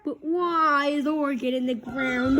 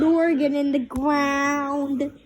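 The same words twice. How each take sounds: First: Said in the usual way. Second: Slowed echoing repeat. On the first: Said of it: "stop repeating things". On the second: Acted. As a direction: parrot the last words slowly. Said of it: "Would you stop repeating things".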